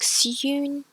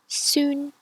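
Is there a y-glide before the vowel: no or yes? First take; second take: yes; no. First: A y-glide comes before the vowel. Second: No y-glide comes before the vowel. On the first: The speaker calls it wrong. "notice I don't pronounce it like soon" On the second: The speaker calls it right. "It's just soon"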